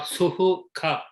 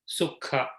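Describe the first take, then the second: First: The middle h is sounded fully with a vowel. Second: The middle h is sounded only half, briefly. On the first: The speaker calls it wrong. "We don't say dukkha or suhukha" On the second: The speaker calls it right. "It is half"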